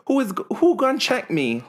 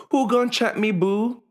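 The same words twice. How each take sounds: First: High, sassy diva challenge; sassy Portia line. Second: Sassy high-pitched diva challenge; Portia impression. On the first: Retold or imitated. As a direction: toss it off like a reality star. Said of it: "China's like". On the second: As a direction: fling it out like a reality-TV diva. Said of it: "In the words of, um, Portia, um, from Real Housewives".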